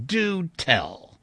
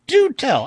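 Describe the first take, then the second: First: Said in the usual way. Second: High, loud, emphatic DO TELL; amused astonishment. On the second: A narrator's reading. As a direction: exclaim DO TELL, much higher and louder. Reply repeated with more force.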